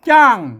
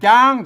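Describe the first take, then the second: First: The syllable is said on a falling tone. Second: The syllable is said on a level mid tone. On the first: "เสียงโท" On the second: "เสียงสมัญ"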